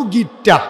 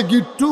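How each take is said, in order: First: গিট্টা with an "a" ending; contrasted word ending. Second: গিট্টু with an "u" ending; contrasted word ending. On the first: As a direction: say গিট্টা, opening to "aa" at the end. (গিট্টা, শেষে আ-কার দিয়ে) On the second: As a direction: say গিট্টু, closing on "oo". (গিট্টু, শেষে উ-কার দিয়ে) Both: Shown as a demonstration. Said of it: "একটু পার্থক্য আছে".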